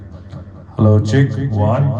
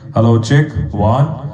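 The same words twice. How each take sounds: First: The voice has an added echo effect. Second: The voice sounds dry, without any echo. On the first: "अभी मैंने थोड़ा सा उसमें इको डाला है" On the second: "इसकी थोड़ी सी वॉल्यूम और इंक्रीज करके देखते हैं।"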